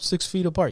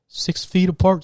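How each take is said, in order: First: Said in the usual way. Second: Higher, louder recited rule; mock staff reminder, voiced up; mock announcement. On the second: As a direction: parrot the covid announcement. Covid rule being recited.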